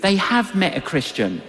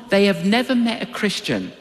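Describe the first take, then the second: First: "have" picked out against the rest; stress on HAVE. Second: "never" picked out, rest falling away; stress on NEVER. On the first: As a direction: lean on the word "have". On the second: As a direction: lean on the word "never". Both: Shown as a demonstration. Two reasons contrasted by one word.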